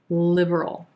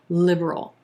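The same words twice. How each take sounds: The two takes are said the same way.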